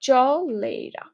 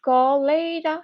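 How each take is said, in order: First: The word begins with a ch sound. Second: The word begins with a k sound. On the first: It is said as spelled to remember the spelling. "তুমি চলেরা উচ্চারণ করতে পারো" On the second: It is the usual pronunciation that hides the spelling. "কলেরা no"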